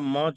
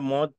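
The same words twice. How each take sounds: First: The vowel is the open diphthong au. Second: The vowel is the closed long o. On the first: The speaker calls it right. "वाव जबर के साथ" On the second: The speaker calls it wrong. "पेश पढ़ देंगे तो मजहूल"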